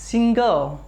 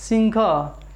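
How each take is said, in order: Both takes have the same delivery.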